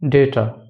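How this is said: It is said in an American accent. "In American accent"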